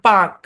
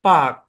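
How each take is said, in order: First: British accent, the r sound is silent. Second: The same.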